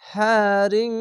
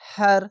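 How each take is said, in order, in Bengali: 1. শব্দটি নাসিক্য -ring ধ্বনি দিয়ে শেষ হয়। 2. শব্দটি খালি র ধ্বনি দিয়ে শেষ হয়। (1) "যদি মিলিয়ে পড়তে হতো তাহলে হ্যারিং" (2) "শেষ অক্ষরটি দুই জের বাদ দিয়ে একটি সাকিন দিয়ে হার, এভাবে থেমে যাবেন"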